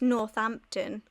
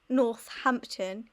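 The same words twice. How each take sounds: First: The 't' and 'h' merge into one 'th' sound. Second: The 't' and 'h' are said as separate sounds. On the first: The speaker calls it right. "the H is a th sound" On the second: The speaker calls it wrong. "It's not Northampton"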